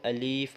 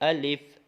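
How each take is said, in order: First: The second vowel is a long ee. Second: The second vowel is a short i. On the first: The speaker calls it wrong. "कहीं इसको अलीफ बोलते हैं" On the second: The speaker calls it right. "इसको अलिफ बस ऐसे बोलेंगे"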